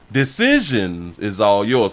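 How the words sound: It is said in a put-on imitation voice.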